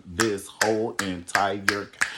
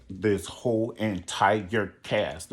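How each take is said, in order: First: "This whole entire ca-," slowly, with extra syllables; drawn-out recital. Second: "This whole entire cast." very slowly, stretching every syllable; drawn-out recital. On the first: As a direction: stretch "This whole entire ca-," and cut it off. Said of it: "threw some extra syllables in there". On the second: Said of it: "like an Easter speech". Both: Retold or imitated.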